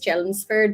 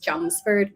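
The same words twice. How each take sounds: First: The name is pronounced just as it is spelled. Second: The name is pronounced differently from its spelling. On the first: An outsider would say it this way. "So I would call this Chelmsford" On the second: A local would say it this way. "but she's it's Chelmsford"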